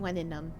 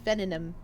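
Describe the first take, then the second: First: It uses the Imperial Latin pronunciation. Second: It uses the Vulgar Latin pronunciation. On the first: The speaker calls it right. "It should be venenum for Latin imperium" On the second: The speaker calls it wrong. "Oh wait, that's Latin vulgaris"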